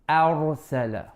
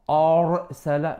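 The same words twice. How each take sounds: First: The opening alif sound is light and plain. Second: The opening alif sound is heavy and darkened. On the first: The speaker calls it right. "No, a ra arsala" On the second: The speaker calls it wrong. "Make sure you don't turn the alif heavy. Don't say a arsala"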